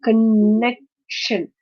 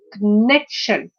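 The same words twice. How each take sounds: First: "connection" slowly as con-nec-tion; syllable by syllable. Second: "connection" as one word, con-NEC-tion; second-syllable stress. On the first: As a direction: pause before the last syllable of "connection". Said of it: "this is a three-syllabic word". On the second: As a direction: punch the middle syllable of "connection". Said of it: "stress is on the second syllable". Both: Shown as a demonstration.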